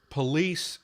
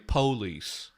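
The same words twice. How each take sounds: First: It is said in the standard American way. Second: It is said the Southern or African American way.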